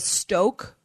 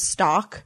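First: The word rhymes with 'joke'. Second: The word rhymes with 'rock'. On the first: The speaker calls it right. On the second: The speaker calls it wrong.

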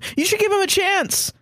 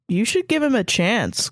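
First: It is blurted out suddenly and forcefully. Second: It is said in a calm, ordinary way.

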